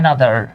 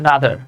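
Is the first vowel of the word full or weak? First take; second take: full; weak. First: The first vowel is full and clear. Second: The first vowel is a light, weak schwa.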